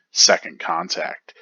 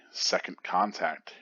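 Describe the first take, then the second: First: Raised, punchy title call; high and loud title read; chapter title announcement. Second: Said in the usual way. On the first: Acted.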